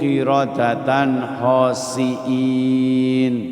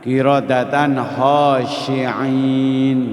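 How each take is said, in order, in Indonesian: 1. Kata terakhir memakai s biasa dan hamzah. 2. Kata terakhir memakai sh dan ain dari tenggorokan. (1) "pakai sin kecil, pakai hamzah" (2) "pakai sin besar tambah ain di belakangnya"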